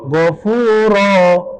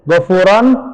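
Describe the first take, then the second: First: The word ends on a long vowel without n. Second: The word ends with an n sound. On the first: The reader stops after this word. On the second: The reader continues into the next word.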